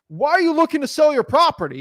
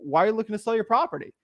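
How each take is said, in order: First: It is said in a stiff, artificial salesy voice. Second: It is said in an ordinary conversational voice. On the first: The speaker is putting on a scripted sales persona. The speaker calls it wrong. "they start talking like this weird sales like thing, and it looks like a robot" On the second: The speaker is talking genuinely, as they normally would. The speaker calls it right. "I'm going to talk to them like in my regular voice"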